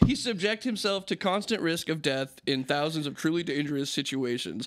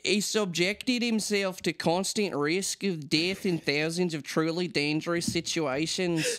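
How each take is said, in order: First: It is said in his normal speaking voice. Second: It is said in an old mine worker voice.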